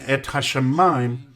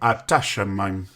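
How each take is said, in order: First: The 'ha' sound begins the second word. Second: The 'ha' sound ends the first word. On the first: The speaker calls it wrong. "instead of saying Et Hashamayim" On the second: The speaker calls it right. "you say Ata Shamayim"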